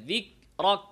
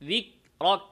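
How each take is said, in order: Both takes have the same delivery.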